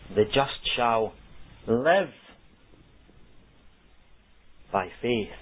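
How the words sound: The stress falls on the word live. The focus is on how one is living now. "the emphasis is on the word live"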